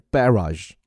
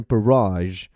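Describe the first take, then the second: First: Barrage with the stress on BAR, first vowel full; British barrage, stressed up front; British stress on first syllable. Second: Barrage with a weak first vowel and the stress on RAGE; American barrage, stress at the back; American stress on second syllable. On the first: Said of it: "英国人重音在前". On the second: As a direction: say barrage the American way, landing on the end. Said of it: "美音呢会念成barrage". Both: Shown as a demonstration.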